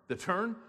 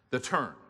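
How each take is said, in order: First: "turn" rising high as a question; questioning echo. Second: Said in the usual way. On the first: Acted. Preacher voicing a listener's question about the turn, questioning rise on "turn". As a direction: echo it back, lifting "turn" like a query. Same word echoed as a question.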